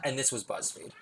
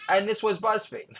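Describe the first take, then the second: First: Said in the usual way. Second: "And this was BuzzFeed." said high, stressing "And"; high title read. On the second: Shown as a demonstration. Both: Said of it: "No, not".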